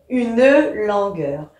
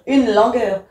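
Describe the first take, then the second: First: The final e of 'une' is pronounced. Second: The final e of 'une' is silent. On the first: This is the poetic reading. "en poésie ... on va bien dire une langueur" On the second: This is the everyday reading. "dans la vie courante on va dire une langueur"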